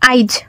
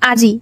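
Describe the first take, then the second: First: The i sound comes before the j. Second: The i sound comes after the j. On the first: This is the Bangali dialect form. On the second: This is the standard form.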